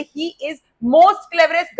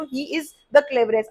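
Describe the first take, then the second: First: "most" drawn out, slow sentence; stress on "most". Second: Said in the usual way. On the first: Shown as a demonstration. Teacher shows children a double superlative, stress on "most". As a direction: lean on "most" as the mistake. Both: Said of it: "गलत है बच्चों".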